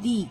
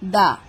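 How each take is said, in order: First: The word ends in a long 'ee' vowel. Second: The word ends in a short 'uh' vowel. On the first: The next word begins with a vowel. "First letter যদি vowel থাকে ... প্রোনাউন্সিয়েশনটা হবে দি" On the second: The next word begins with a consonant. "First letter যদি consonant হয় ... pronunciation হবে দা"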